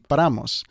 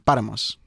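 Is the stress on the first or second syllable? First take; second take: second; first. First: The stress is on the second syllable. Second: The stress is on the first syllable. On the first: "the natural emphasis on the word Paramus would be on the second A" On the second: "if there's an accent on the first A"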